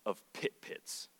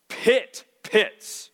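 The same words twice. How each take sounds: First: Whispered pit pits, slow; hushed, half-amused whisper of "pit pits". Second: "pit pits" said firmly, both words hit; preacher drives home "pit pits"; stress on pit pits. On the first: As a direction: breathe out "of pit pits" with no voice, slowly. Reads the literal translation aloud. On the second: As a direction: land hard on "pit pits". Stressing the Hebrew emphasis. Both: Shown as a demonstration.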